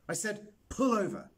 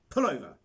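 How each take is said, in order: First: Louder, higher, exasperated repeat of the order; insist, hitting pull hard; insistent repeat. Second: Loud, high snap to stop; sharp command. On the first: Boy repeats his order to the driver, more insistent and louder. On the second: Boy orders his driver to stop the trike, loud and sharp. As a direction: bark the order to pull over. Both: Acted.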